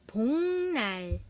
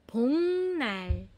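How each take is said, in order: First: The first syllable ends in an ng sound. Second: The same.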